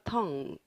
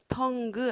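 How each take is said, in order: First: The word ends without any hard G sound. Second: The word ends with an audible hard G sound. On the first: The speaker calls it right. "G 소리 안 나요?" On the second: The speaker calls it wrong. "tongue 아니고요"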